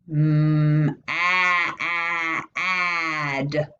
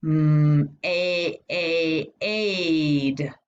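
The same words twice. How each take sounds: First: "Mm, ah, ah, ad" sounded out in held pieces, "a" as in "cat"; short A blending. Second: "Mm, a, a, aid" sounded out in held pieces, "a" as "ay"; long A blending. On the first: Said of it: "the short sound for A". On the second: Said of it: "It says its name". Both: Shown as a demonstration.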